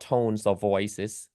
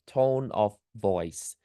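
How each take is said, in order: First: "tones of voices" with an added plural s on both nouns; wrong plural form. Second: Said in the usual way. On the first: Shown as a demonstration. Teacher showing students the wrong plural, said slowly. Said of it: "not tones of voices". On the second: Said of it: "No plural to any one of them".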